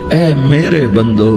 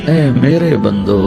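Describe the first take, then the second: The two takes are said the same way.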